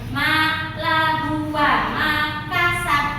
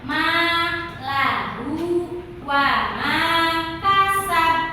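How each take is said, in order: First: The long vowel is cut short. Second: The long vowel is held for two beats. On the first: The speaker calls it wrong. "itu bunyinya nggak panjang. Salah nih" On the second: The speaker calls it right. "Cukup dua harokat"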